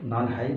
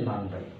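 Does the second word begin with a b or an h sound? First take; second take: h; b. First: The second word begins with an h sound. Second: The second word begins with a b sound. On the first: The speaker calls it wrong. "নান হাই না হয়ে" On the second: The speaker calls it right. "উচ্চারণটা ব হয়ে যায়"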